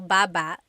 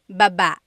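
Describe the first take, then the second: First: The stress is on the first syllable. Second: The stress is on the second syllable.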